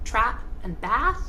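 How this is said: It is spoken in an American accent. "Americans will say"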